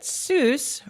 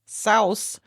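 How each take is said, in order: First: The name rhymes with goose. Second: The name has the German vowel sound. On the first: "Seuss rhymed with Mother Goose" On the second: "which is the correct German pronunciation"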